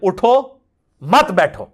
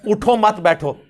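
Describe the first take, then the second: First: There is a pause after 'उठो'. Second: There is a pause after 'मत'.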